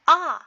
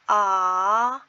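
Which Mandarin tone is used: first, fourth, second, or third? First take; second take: fourth; second. First: It is said with Mandarin fourth tone. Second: It is said with Mandarin second tone.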